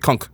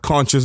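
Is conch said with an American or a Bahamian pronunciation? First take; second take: Bahamian; American. First: It is said with a Bahamian pronunciation. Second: It is said with an American pronunciation.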